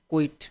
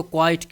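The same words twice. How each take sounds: First: کوئٹ said short as "kwit" with a short i; quit pronounced. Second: کوائٹ said clearly as "kwait" with a long ai sound; quite pronounced. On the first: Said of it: "ایک اور لفظ دوسرا ہوتا ہے کوئٹ". (کوئٹ کو چھوٹی اِ کے ساتھ "کوئٹ") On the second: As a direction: spell out کوائٹ as "kwait", a touch louder. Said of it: "اس کو کوائٹ کہتے ہیں". (کوائٹ کو "کوائٹ" لمبی آئی کے ساتھ) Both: Shown as a demonstration.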